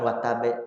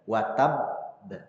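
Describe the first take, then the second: First: The final b is released quickly with a vowel. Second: The final doubled b is held before release. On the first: Only one letter is read; one letter is lost. The speaker calls it wrong. "Bukan watabe" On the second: Both letters of the doubled consonant are read. The speaker calls it right. "harus dibacanya ditahan"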